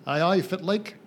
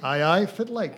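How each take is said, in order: First: Broad Scottish Doric, a little louder; Doric greeting. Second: Broad Doric greeting, a bit higher and louder. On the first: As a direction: greet them in thick northeast Scots. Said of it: "I would say". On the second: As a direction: say it like a local from Banffshire. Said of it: "Hello, how you doing?". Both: Shown as a demonstration.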